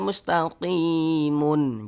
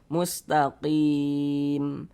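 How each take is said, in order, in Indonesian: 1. Kata ini berakhir dengan bunyi -un tambahan. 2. Kata ini berakhir pada huruf m yang mati. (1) "Jangan dibaca mustaqimun" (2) "Ini kan kita baca mustaqim"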